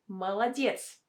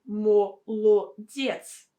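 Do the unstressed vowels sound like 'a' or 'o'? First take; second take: a; o. First: The unstressed vowels are pronounced as A. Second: The unstressed vowels are pronounced as a full O. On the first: The speaker calls it right. "We say молодец" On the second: The speaker calls it wrong. "We don't say молодец"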